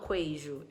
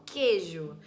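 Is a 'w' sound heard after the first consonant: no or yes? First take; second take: yes; no. First: It starts with a K followed by a W sound. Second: It starts with a plain K sound, no W. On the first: The speaker calls it wrong. "Eu não falo queijo" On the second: The speaker calls it right. "eu falo queijo, como se fosse com K"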